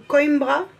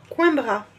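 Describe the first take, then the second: First: "Coimbra" said as koym-bra, rising; "Coimbra" with oi as oy and a clear m, unsure rise; second try at pronunciation. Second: "Coimbra" said French-style as kwin-bra; "Coimbra" with the oi read as French wa, nasal in; unsure pronunciation. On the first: Second guess at the city name, Portuguese-style. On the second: Trying out the city name on the card, French-style. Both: Shown as a demonstration. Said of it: "Je ne sais pas comment on le dit".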